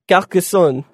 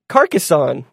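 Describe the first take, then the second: First: It is said with a French accent. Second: It is said with a plain English accent.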